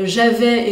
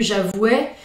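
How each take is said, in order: First: The ending is a plain 'eh' vowel. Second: The ending is a 'weh' sound. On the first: This is the newer, popular pronunciation. "quand on s'est mis à prononcer les imparfaits" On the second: This is the older pronunciation. "et non plus"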